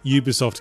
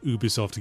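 First: The first syllable begins with a 'you' sound. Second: The first syllable begins with an 'oo' sound. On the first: The speaker calls it right. "it's always a Ubisoft game" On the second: The speaker calls it wrong. "not an Ubisoft game"

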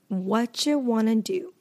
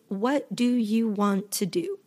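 First: What do you is reduced to whatcha. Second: What do you is said as full words. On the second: "All of this is what do you want to do?"

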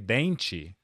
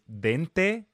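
First: The word is pronounced with changed, accented sounds. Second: The word is pronounced just as it is spelled. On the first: "but their accent, a lot of them say" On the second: "teeth is dente in Portuguese"

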